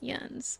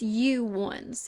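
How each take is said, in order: First: It is run together into one syllable. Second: It is said as two separate syllables. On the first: "it's short for yuns, and then it's just yuns" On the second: "I feel like it's you ones"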